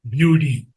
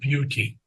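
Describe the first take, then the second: First: The middle consonant sounds like a soft d. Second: The middle consonant is a clear t. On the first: The speaker calls it wrong. "and I get beauty" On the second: The speaker calls it right. "instead of beauty"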